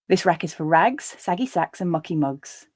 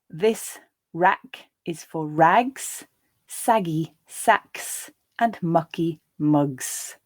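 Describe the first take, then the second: First: The sentence is read at a natural pace. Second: The sentence is read slowly. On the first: "the second and third times at a more natural pace" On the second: "I'll read the first time more slowly"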